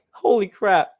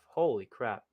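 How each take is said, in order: First: Loud, amazed burst; genuinely amazed holy crap; excited exclamation. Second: Low, hushed amazement; soft stunned holy crap; quiet awe. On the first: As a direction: blurt it out in disbelief. Amazed at replayed play. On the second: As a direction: breathe it out, stunned. Repeats after watching blocks. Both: Real, not acted.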